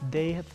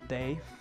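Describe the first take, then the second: First: It is said as two full separate words. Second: It is said as one contracted syllable.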